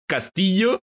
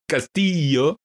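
First: It is said with a native Spanish pronunciation. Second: It is said with an English-speaker pronunciation.

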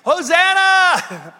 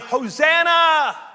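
First: It is yelled loudly. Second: It is said at normal speaking volume.

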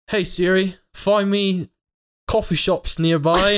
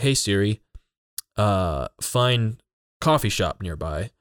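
First: It is said in a put-on British accent. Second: It is said in a plain American accent.

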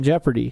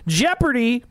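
First: The word is said flatly, without excitement. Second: The word is said excitedly, with exclamation.

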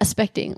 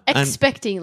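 First: The word begins with a reduced 'as' sound. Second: The word begins with a full 'eks' sound. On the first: "like you can just say that" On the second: "Like that's like a lot of effort to say"

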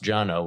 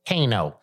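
First: The name begins with a J sound. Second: The name begins with a K sound. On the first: The speaker calls it right. "but it's pronounced Jano" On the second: The speaker calls it wrong. "everybody pronounces it as a Kano"

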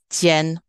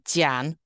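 First: The vowel sounds like 'en'. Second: The vowel sounds like 'an'. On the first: The speaker calls it right. "the A-N there, again, is an N rather than an" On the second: The speaker calls it wrong. "instead of saying jian"

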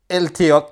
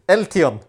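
First: The name ends with a K sound. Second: The name ends with an N sound. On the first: The speaker calls it wrong. "How is that even a K sound?" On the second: The speaker calls it right. "Close enough"

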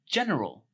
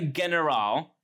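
First: The word is said in the ordinary standard way. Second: The word is said in a mocked, unusual way. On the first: This is how the word is normally said. The speaker calls it right. "it's a fucking general" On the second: This imitates the commentator's way of saying it. The speaker calls it wrong. "so not a general"

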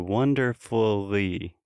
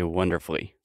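First: It is said carefully with every vowel. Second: It is said fast, the middle vowel eaten.

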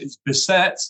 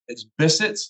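First: The name is said the American way. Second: The name is said the British way.

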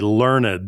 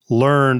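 First: The word is said as two syllables. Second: The word is said as one syllable. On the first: The word describes an educated, scholarly person. "or as we sometimes say, learned, like the literati" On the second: The word refers to knowledge already acquired. "learners versus learned"

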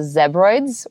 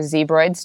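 First: It is pronounced the British English way. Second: It is pronounced the American English way. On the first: "British English" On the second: "American English"

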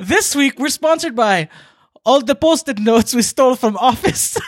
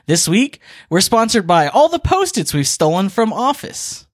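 First: It is said in a Russian accent. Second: It is said in his normal accent.

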